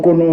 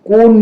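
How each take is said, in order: First: The word ends with a final vowel: kono. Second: The word ends without a final vowel: kon.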